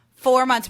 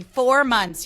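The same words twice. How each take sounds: First: Four said high and loud at the end of the count; stress on four. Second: Four punched high and loud; stress on four. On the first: Retold or imitated. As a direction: land hard on four. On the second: Real, not acted. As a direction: hit the word Four hard.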